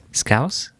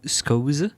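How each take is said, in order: First: "scouse" said "skowss", rising like a question; puzzled sounding-out. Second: "scouse" misread as "skohz", higher and rising; puzzled sounding-out. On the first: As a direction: ask "scouse" with an OW vowel and final S. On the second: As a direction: try "scouse" with an OH vowel, as a question. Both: Real, not acted. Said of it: "What the fuck is that?".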